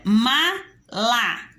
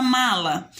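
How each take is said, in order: First: "mala" split MA... LA with a pause; two detached syllables, ma / la. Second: Said in the usual way. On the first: Shown as a demonstration. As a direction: slowly break "mala" into two beats. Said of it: "Quantas sílabas tem a palavra". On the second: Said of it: "tem a palavra mala".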